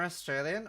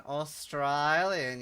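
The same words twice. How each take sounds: First: Said in the usual way. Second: AUSTRALIAN drawn out slowly in broad Australian; Australian accent. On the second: Shown as a demonstration. Streamer answering chat's doubt, exaggerated Australian accent. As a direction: stretch AUSTRALIAN with a broad Aussie middle vowel. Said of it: "Sounded more Australian?".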